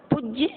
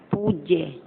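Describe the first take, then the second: First: "पूज्य" as pujya, short u; brief u in "पूज्य"; wrong short vowel. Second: "पूज्य" as poojya, long ū; drawn-out oo in "पूज्य". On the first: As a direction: say "पूज्य" high, first vowel cut short. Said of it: "अशुद्ध, अशुद्ध". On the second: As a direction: hold the first vowel of "पूज्य", falling. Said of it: "शुद्ध". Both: Shown as a demonstration.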